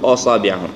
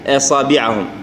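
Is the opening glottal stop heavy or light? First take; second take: heavy; light. First: The opening glottal stop is thick and heavy. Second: The opening glottal stop is thin and light. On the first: The speaker calls it wrong. "ما نقول" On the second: The speaker calls it right. "فنقول"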